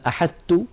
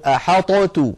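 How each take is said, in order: First: The emphatic t fully merges into the plain t. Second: The emphatic t is released with a bounce separately. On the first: "هل تدغم هذه الطاء في التاء؟ فنقول مثلا أحطت، هذا لم تفعله العرب" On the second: "ولو أظهرنا الطاء لابد من قلقلتها فنقول أحطت"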